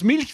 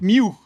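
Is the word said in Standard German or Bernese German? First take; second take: Standard German; Bernese German. First: It is said in Standard German with an L. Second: It is said in Bernese with the L as U.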